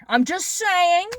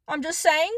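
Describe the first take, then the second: First: Slow and pointed, I'm just saying stretched out; slow pointed aside; drawn-out I'm just saying. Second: Said in the usual way. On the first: Real, not acted. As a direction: lean on "I'm just saying" slowly with a knowing edge. Repeats phrase, first take drawn out.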